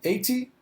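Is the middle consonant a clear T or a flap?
clear T. The middle consonant is a clear T sound. "para o britânico"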